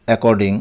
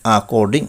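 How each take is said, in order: First: অ্যাকর্ডিং opened with "e"; common mispronunciation. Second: অ্যাকর্ডিং opened with "a"; corrected pronunciation. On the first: Teacher showing the common way, অ্যাকর্ডিং starting "e". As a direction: say অ্যাকর্ডিং as "e-kor-ding". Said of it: "আমরা বলি". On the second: Teacher correcting learners, অ্যাকর্ডিং starting "a". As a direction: say অ্যাকর্ডিং as "a-kor-ding". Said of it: "সঠিক উচ্চারণ হবে". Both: Shown as a demonstration.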